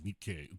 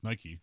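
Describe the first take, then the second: First: The name has a held, doubled k sound. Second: The name has a single k, like the shoe brand. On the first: "Japanese pronunciation, I'd say Nikkei, two Ks" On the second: "Nike, like the shoe"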